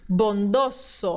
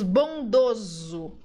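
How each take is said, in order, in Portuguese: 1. O s do meio soa como s. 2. O s do meio soa como z. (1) "No espanhol, essas palavras têm que ter som de S sempre" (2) "No português, às vezes, nós transformamos o S no som de Z"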